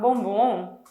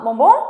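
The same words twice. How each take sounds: First: It sounds like refusing a chocolate. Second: It sounds like offering a chocolate.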